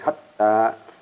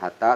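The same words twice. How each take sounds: First: The middle t is doubled and held. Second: The middle t is short, not held. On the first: The speaker calls it right. "ada tasdid, ditahan bacanya" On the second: The speaker calls it wrong. "bukan hatta"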